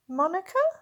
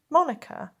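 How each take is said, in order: First: The voice rises at the end. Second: The voice falls at the end.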